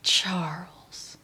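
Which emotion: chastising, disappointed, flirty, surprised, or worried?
disappointed. The name is said in a disappointed tone.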